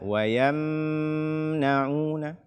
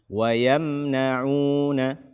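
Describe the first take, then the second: First: The m sound is held and prolonged. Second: The m sound is released quickly without holding. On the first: The speaker calls it wrong. "menahan suara pada mim sukun ... Jangan dibaca" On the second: The speaker calls it right. "izhar syafawi"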